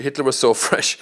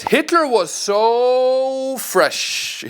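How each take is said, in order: First: Said in the usual way. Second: Slow, drawn out and much higher, like a starstruck fan; mock gushing quote. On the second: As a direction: stretch every word out in mock admiration. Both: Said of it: "He says".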